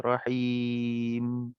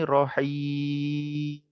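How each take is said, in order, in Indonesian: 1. Kata ini berakhir dengan bibir tertutup pada 'm'. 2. Kata ini berakhir terbuka, tanpa menutup bibir. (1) "Patutnya rahim. Ah, rapatkan dua bibir tu" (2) "Tergantung rohi"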